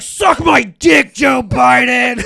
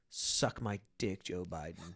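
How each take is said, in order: First: It is said loudly, with force. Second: It is said calmly, without force.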